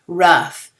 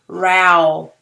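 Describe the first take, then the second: First: The vowel sounds like the one in cup. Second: The vowel sounds like the one in cow. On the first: The speaker calls it right. "it goes over here and it is rough" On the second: The speaker calls it wrong. "if we read it with the ow sound"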